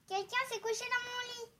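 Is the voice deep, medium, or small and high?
small high. It is said in a small baby voice.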